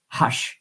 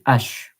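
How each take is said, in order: First: The word starts with an audible h sound. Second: The word starts with a vowel, no h sound. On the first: The speaker calls it wrong. "We don't say hash in French" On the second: The speaker calls it right. "we don't pronounce the H. So we say H"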